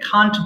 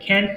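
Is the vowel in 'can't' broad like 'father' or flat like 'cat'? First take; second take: broad; flat. First: The vowel is broad, as in 'father'. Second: The vowel is flat, as in 'cat'. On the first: The speaker calls it right. "খান্ট বলবেন" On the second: The speaker calls it wrong. "ক্যান্ট না বলে"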